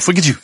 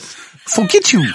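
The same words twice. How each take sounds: First: The phrase is said quickly and clipped. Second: The phrase is said slowly and drawn out. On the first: The speaker calls it right. "it ought to be one syllable" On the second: The speaker calls it wrong. "I said it too slowly"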